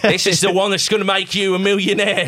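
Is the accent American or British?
British. It is said in a British accent. "way too British to ever sound like that"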